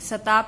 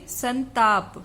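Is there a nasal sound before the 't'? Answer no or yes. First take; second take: no; yes. First: It has no nasal sound before the t. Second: It has a nasal sound before the t. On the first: The speaker calls it wrong. "सताप लिखा है यहाँ पे" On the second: The speaker calls it right. "अनुस्वार आएगा"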